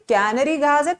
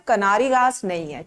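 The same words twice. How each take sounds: First: कैनरी as KAI-nuh-ree, lightly lilting; correct pronunciation. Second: कनारी as kuh-NAA-ree, the mistaken form; wrong pronunciation. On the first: Teacher modelling कैनरी for the students, gentle. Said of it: "प्यार से बोलेंगे". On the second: Teacher showing the wrong version of कनारी, dismissive. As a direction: say कनारी with a short ku and long naa. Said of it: "सब accent में बोलेंगे". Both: Shown as a demonstration.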